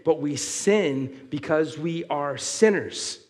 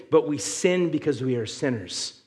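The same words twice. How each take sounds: First: "but we sin because we are sinners" slowed right down, each word weighted; slow emphatic repeat. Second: Said in the usual way. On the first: Shown as a demonstration. Preacher repeats the key line to the congregation, slow and emphatic. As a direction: drive the point home word by word. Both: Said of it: "Let me say that last part again".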